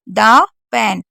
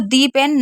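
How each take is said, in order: First: The word 'the' is said with a short 'uh'. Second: The word 'the' is said with a long 'ee'. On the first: The speaker calls it right. "इसको दा pen पढ़ रहे हैं" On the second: The speaker calls it wrong. "दी pen नहीं पढ़ सकते क्योंकि वो गलत हो जाएगा"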